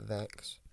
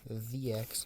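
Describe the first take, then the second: First: It is said as one syllable starting with v. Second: It is said as two parts, 'the' plus 'X'. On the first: The speaker calls it wrong. "not Vex" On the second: The speaker calls it right. "Pronounced the X"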